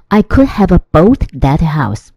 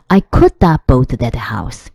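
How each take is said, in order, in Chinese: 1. Could have 读作两个完整的词。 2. Could have 被压缩成一个词，读作 coulda。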